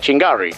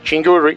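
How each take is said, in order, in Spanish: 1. La vocal del medio suena como 'a'. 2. La vocal del medio suena como 'u'. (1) "nunca Chingarri" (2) "siempre será Chingurri"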